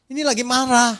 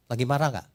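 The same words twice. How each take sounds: First: "lagi" hit high and loud, falling on "marah"; emphatic answer. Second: Said in the usual way. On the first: Shown as a demonstration. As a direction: slam the answer "Ini lagi marah" home, much higher and louder.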